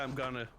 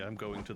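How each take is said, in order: First: It is reduced to gonna. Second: It is said in full as going to. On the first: "We'd say I'm gonna" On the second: "you would say I'm going to the market"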